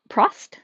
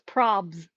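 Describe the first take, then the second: First: The b sound is dropped from the name. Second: The t sound is dropped from the name. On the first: "Maybe the B is silent" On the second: "voiceover leaves the T silent, so it comes out as probs"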